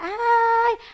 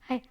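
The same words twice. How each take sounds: First: It is said in a happy, expressive way. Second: It is said flatly, without expression.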